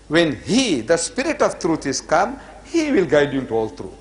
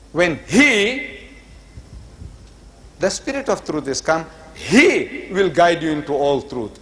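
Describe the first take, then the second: First: The pronoun 'he' is not emphasized. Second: The pronoun 'he' is emphasized each time.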